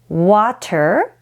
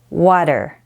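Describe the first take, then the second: First: The middle T is a clear T sound. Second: The middle T is a quick D-like flap. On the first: "as it is spelled" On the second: "the T sounds more like a D"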